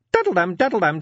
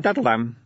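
First: High sing-song daddle-dam, daddle-dam; sung ringtone chime. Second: Said in the usual way. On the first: Acted. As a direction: chant daddle-dam, daddle-dam as a high bright ring. Imp's ringing chime.

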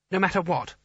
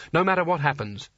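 First: Higher, unsure questioning voice; uncertain boy. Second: Said in the usual way. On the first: A narrator's reading. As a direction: ask it hesitantly like a scared boy. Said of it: "said Coin uncertainly".

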